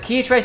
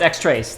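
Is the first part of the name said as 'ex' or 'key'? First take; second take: key; ex. First: The first part is said as 'key'. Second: The first part is said as 'ex'. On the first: The speaker calls it wrong. "You pronounce it key trace? No, no, no" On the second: The speaker calls it right. "it's X-Trace, they said"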